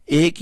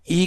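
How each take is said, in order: First: "ایک" opening with an open "ay" sound; majhool zer vowel. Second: "ای" as a pure "ee"; maroof zer vowel. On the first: Teacher showing learners the zer sound to avoid, majhool "ay" in "ایک". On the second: Teacher showing learners the correct zer sound, maroof "ee" in "ای". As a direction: say "ای" with a close "ee" vowel. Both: Shown as a demonstration. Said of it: "زیر کی حرکت کو ادا کرتے ہوئے".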